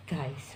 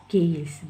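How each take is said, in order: First: Guys said softly as in English, with the ai sound; correct guys. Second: Gays said with an open a sound, like the word for homosexual; wrong gays. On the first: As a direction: say guys properly, like gais. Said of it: "kita panggilnya". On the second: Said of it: "terganti huruf A seperti ini". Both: Shown as a demonstration.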